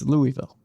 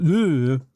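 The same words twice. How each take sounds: First: The first part sounds like the name 'Louis'. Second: The first part does not sound like 'Louis'. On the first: The speaker calls it right. "the correct way" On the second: The speaker calls it wrong. "It's not Louisville"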